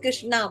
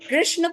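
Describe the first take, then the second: First: The name ends with a long 'aa' vowel. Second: The name ends without a long final vowel. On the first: Draupadi is being addressed instead. The speaker calls it wrong. "वो S N A लिखा होता है इसलिए कृष्णा बोलते हैं" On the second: The deity is being addressed. The speaker calls it right. "कृष्ण पुकारना चाहिए।"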